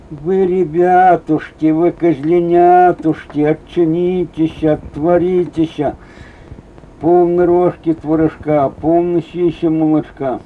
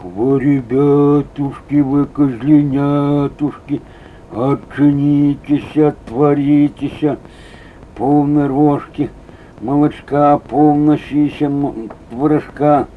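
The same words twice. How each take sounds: First: A hint of the mother goat's singsong from the wolf; lightly sweeten it like the mother goat; wolf's new goat voice. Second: Slow, drawn-out wolf pretending to be the goat; lightly voiced wolf luring the kids, slowly; wolf faking mother goat. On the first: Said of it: "Волк пришёл с новым голосом". (волк новым козьим голосом, слегка нараспев) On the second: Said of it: "не маткин голос". (волк под мать-козу, медленно и протяжно)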